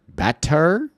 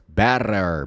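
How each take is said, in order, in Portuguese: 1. A consoante do meio é um som de t claro. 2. A consoante do meio é um r batido rápido. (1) "ao invés de better" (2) "T, pega o som do R, o R do português"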